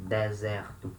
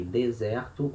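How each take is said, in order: First: "deserto" as "deh-ZEH-rtu"; both E's open. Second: "deserto" as "day-ZEH-rtu"; closed then open E. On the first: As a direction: open the first e of "deserto" too. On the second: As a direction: close only the first e of "deserto". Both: Shown as a demonstration. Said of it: "you can say deserto or deserto".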